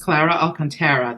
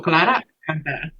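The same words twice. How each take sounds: First: The name is said with an English accent. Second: The name is said with a Spanish accent.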